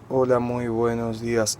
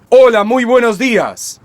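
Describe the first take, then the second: First: The greeting is said weakly, without breath support. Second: The greeting is said strongly, pushed from the belly. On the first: The speaker calls it wrong. "En lugar de hacer hola, muy buenos días, no" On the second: The speaker calls it right. "fuerte, empujando fuerte ... Tomas aire"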